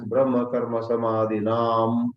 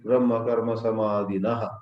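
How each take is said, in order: First: The last word ends with an added m sound. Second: The last word ends with an added ha sound. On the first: "mispronounced either as Brahma Karma Samadhinam" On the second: "or Brahma Karma Samadhinaha"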